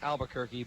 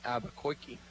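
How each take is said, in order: First: The name gets its usual standard pronunciation. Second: The name gets a comic cartoon-style mispronunciation. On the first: "I know it's pronounced Albuquerque" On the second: "if you're a Bugs Bunny fan, you know that he pronounced it Albuquerque"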